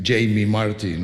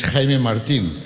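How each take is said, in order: First: Jamie Martin said the English way, JAY-mee; anglicized name. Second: Put-on Jaime Martin said the Spanish way, HAI-meh mar-TEEN; Spanish name. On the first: Retold or imitated. Conductor mimics programme readers guessing his name, anglicized Jamie Martin. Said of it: "you think Jamie Martin or something". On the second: Shown as a demonstration. Conductor from Spain introduces himself, Spanish Jaime Martin. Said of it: "my name is Jaime Martin".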